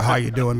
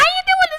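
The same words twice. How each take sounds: First: The voice is low and deep, with bass. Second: The voice is high and thin, without bass. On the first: "Everybody else" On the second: "I have the least bass in the voice"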